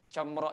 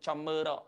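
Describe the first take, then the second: First: The word has two syllables, no extra vowel. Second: An extra vowel makes the word three syllables. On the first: The speaker calls it right. "Comro itu" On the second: The speaker calls it wrong. "tidak boleh kita sebut comero"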